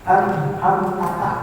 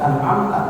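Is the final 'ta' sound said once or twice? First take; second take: twice; once. First: The final ta sound is said twice. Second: The final ta sound is said once. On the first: The speaker calls it wrong. "tapi dia baca an'amtata, taknya dua kali" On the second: The speaker calls it right. "satu baca an'amta"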